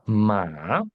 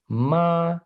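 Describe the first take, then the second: First: "ma" dipping low, then rising; "ma" drawn out with a rising end; horse tone. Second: "ma" held high and level; "ma" on one even high note; first tone. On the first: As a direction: let "ma" drop and swing upward, as Mandarin for horse. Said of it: "eu tô dizendo cavalo". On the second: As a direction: say "ma" in Mandarin first tone, steady and drawn out. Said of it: "no primeiro tom". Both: Shown as a demonstration.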